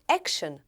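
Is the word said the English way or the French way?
English. It is said with an English pronunciation. "Em inglês ficou action"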